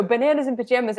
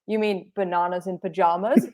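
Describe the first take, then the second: First: Said in the usual way. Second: "bananas" and "pajamas" with broad AH vowels; kids' Australian pronunciation. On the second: Retold or imitated. Kids correcting her show title, broad AH in "bananas" and "pajamas". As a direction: say banahnas in pajahmas for "bananas in pajamas". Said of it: "and they're like".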